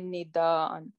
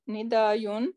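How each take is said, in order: First: A glottal stop comes before the ending. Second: A y sound comes before the ending. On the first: The speaker calls it right. "we will say nidaan" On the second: The speaker calls it wrong. "not nidayun"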